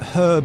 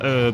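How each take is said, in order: First: The word is said with a British pronunciation. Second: The word is said with an American pronunciation. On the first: "is the British pronunciation" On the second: "is the American pronunciation"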